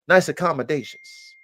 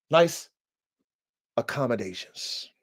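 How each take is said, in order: First: "nice accommodations" whispered under the breath; whispered aside. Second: Said in the usual way. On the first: Real, not acted. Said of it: "repeated phrase, whispered take". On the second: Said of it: "repeated phrase, plain take".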